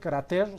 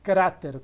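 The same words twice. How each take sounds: First: The stress is on the last syllable. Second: The stress is on the first syllable. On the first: The speaker calls it wrong. "No se dice" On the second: The speaker calls it right. "con tilde en la A"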